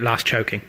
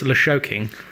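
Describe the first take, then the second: First: The middle is split into 'st' then 'ch'. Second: The middle is a single 'sh' sound. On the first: "I'm pronouncing it Last Choking" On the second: "I have a feeling it's Lashoking"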